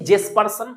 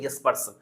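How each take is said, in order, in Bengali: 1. নামটি J ধ্বনি দিয়ে শুরু হয়। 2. নামটি Y ধ্বনি দিয়ে শুরু হয়। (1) "লিখেছি জেসপারসন" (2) "উচ্চারণ হবে ইয়েসপারসন"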